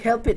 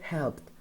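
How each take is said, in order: First: The ending is an extra syllable. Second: The ending is a plain t sound. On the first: The speaker calls it wrong. "we don't say help it. No, it's incorrect" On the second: The speaker calls it right. "We say helped"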